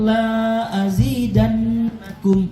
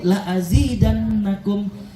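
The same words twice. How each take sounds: First: The vowel in the first word is long. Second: The vowel in the first word is short. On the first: I will not give you more. The speaker calls it wrong. "yang pendek tadi kita panjangin, berubah artinya" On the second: I will surely give you more. The speaker calls it right. "La-nya pendek Bu"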